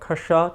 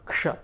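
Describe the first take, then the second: First: A short vowel separates the k and sh. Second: The k and sh are joined together. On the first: The speaker calls it wrong. "there will be a tendency to say kasha first" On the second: The speaker calls it right. "close that gap from kasha to ksha"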